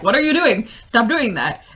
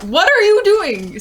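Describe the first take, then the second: First: Mock upset, raised pitch; Lando. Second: High, loud mock outrage; exasperated yell, voice leaping way up; Lando. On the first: Lando upset at the end of Solo, mock scolding. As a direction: playfully scold in exasperation. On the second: Lando after Han crashes it again, mock outraged yell. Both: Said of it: "it's Lando being incredibly upset".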